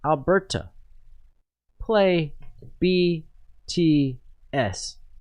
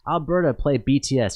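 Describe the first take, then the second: First: The command is spoken slowly and deliberately. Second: The command is spoken at a normal pace.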